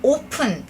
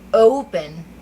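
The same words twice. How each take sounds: First: The first vowel is a plain, steady 'o'. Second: The first vowel glides from 'o' to 'u'. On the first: The speaker calls it wrong. "이렇게만 알고 계시는데" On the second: The speaker calls it right. "오 발음이 오, 우 발음으로 난다는 거예요"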